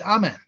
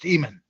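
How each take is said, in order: First: The name begins with an open 'ah' vowel. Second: The name begins with an 'eh' vowel. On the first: This is the form used by most ancient societies. "in every ancient society that had connection with Egypt ... is pronounced Amen" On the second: This is the form used in Ethiopia. "except Ethiopia, where it's pronounced Emen"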